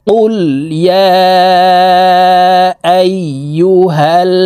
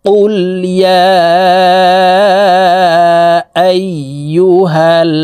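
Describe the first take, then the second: The two takes are said the same way.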